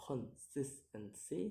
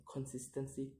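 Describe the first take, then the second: First: "consistency" split into syllables; separated syllables on "consistency". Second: Said in the usual way. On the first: Shown as a demonstration. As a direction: sound out "consistency" piece by piece. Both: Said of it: "count the word syllable backwards".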